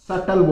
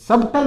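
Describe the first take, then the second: First: No b sound comes before the t. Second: A b sound comes before the t. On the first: The speaker calls it right. "सटल बोलोगे" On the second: The speaker calls it wrong. "सबटल नहीं बोलोगे आप"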